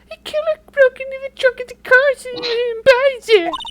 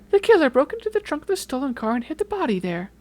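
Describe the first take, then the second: First: It is said imitating her voice. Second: It is said without imitating her voice.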